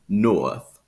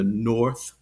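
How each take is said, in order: First: It has an oa vowel, Transatlantic accent. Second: It has a rounded R sound, General American.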